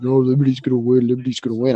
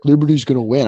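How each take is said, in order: First: Imitating a friend's blurred mumble; mumbling. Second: Said in the usual way. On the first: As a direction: mumble it like there's a toaster in your mouth. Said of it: "why are you mumbling like that". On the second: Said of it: "Why do you keep talking like that?".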